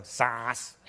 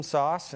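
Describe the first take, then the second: First: "Sauce" mimicked with an open "ah" vowel, sahss; father's scornful imitation of "Sauce" as "sahss"; dad mocking pronunciation. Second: Said in the usual way. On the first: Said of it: "my dad would go". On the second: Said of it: "they hated my Canadian accent".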